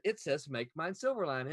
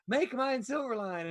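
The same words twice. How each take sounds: First: Said in the usual way. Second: Put-on higher, slower kid-like catchphrase; a light mock kid voice; imitating the kid. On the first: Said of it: "And I said". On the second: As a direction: echo the boy's little voice. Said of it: "And he went".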